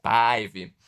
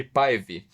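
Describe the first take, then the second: First: Päivi with a loud, stretched A; exaggerated open A in Päivi. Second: Said in the usual way. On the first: Shown as a demonstration. Trying out a Finnish name, exaggerated open A in Päivi. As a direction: stretch the first vowel of Päivi. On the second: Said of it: "eu não sei pronunciar esse troço".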